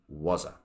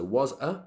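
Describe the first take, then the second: First: The words are squashed together and reduced. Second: Each word is said fully and separately.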